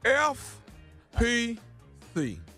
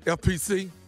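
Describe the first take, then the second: First: The letters are spaced apart with pauses between them. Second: The letters are run together without pauses.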